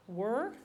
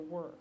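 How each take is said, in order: First: "Were?" lifted at the end in disbelief; "Were?" rising, a touch indignant; questioning rise on "Were?". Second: Said in the usual way. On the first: Acted. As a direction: echo "Were?" as an offended question. Emmy echoes the word were.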